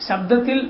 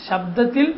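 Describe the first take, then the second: No difference in how they are said.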